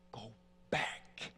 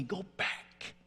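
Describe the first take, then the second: First: Low, soft, slow repeat; spent tirade. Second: High-pitched retold spin-out; tirade. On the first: Retold or imitated. Son repeats the order to the haunting voice, spent. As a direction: drop low and let the order fade out. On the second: Son orders his father's voice away in the restroom, tirade. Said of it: "I have this tirade, just a, a total spin out".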